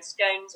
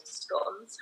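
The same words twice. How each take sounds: First: "scones" with a long O, rhyming with "stones". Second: "scones" with a short O, rhyming with "dons". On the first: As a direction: say "scones" to rhyme with "bones". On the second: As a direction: say "scones" like "gone" plus an S. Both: Shown as a demonstration. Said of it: "however you like to say it".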